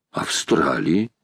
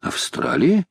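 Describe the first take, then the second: First: Австралии slow and low, drawn out; Австралии lingered over in a low voice; musing confirmation. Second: Австралии with a higher, rising question tune; Австралии asked back, pitch climbing at the end; questioning echo. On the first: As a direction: confirm Австралии to oneself, lower and slower. Accepts the word after querying it. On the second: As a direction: query Австралии as if checking what was heard. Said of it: "переспросил Паганель". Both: A narrator's reading.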